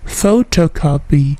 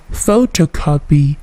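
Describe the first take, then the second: No difference in how they are said.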